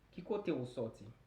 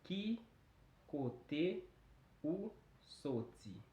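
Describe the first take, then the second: First: The phrase is said quickly. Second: The phrase is said at a normal pace.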